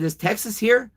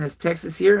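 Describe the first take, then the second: First: Is Texas here asked much higher, rising in dread; anxious question. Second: Said in the usual way. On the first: Retold or imitated. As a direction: ask it pitched way up, scared of the answer. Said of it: "I looked at him and I said". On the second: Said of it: "And I asked C O Johnson".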